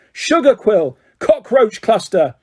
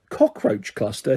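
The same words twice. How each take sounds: First: Angry yell. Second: Softer, slow, puzzled question; amazed. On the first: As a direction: keep yelling guesses. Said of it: "he yelled angrily". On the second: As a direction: Cockroach cluster said softly in disbelief. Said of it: "he said, amazed". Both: A narrator's reading.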